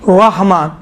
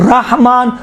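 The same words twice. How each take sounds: First: "رحمان" with a full, W-like rounded R; heavy R. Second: "رحمان" with a thin, light R. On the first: Teacher showing students the other valid reading, heavy R. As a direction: round the first syllable of "رحمان" towards "raw". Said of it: "واو جیسا". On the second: Teacher showing students one of two valid readings, light R. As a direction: say "رحمان" with a plain "ra", no W-like rounding. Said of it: "دونوں صحیح ہے". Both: Shown as a demonstration.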